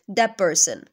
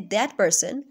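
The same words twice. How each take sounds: First: The t of 'that' blends into the p. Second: The t of 'that' is fully pronounced. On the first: This is rapid, natural speech. "we will quickly say that person" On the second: This is slow, careful speech. "we will not say that person"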